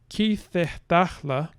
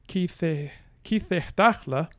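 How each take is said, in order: First: The stress is on the first syllable. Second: The stress is on the second-to-last syllable. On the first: "this is assuming that we have primary stress initially" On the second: "we are going to make our primary stress go onto the penultimate"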